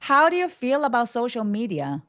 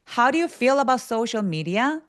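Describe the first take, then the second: First: The pitch falls at the end of the question. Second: The pitch rises at the end of the question. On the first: The speaker calls it right. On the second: The speaker calls it wrong.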